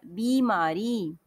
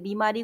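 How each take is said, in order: First: बीमारी very slow, with बी drawn out; long ī. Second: बीमारी starting with a quick short बि; short i error. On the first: Teacher correcting the misspelling, long slow बी in बीमारी. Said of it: "बीमारी नहीं होता है". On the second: Teacher quoting children's misspelling, short बि in बीमारी. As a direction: shorten the first vowel of बीमारी to बि. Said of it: "बहुत बच्चे गलत लिखते". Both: Shown as a demonstration.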